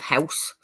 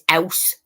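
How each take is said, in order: First: The word starts with a clear h sound. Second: The word starts without an h sound. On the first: "instead of" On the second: "And it's"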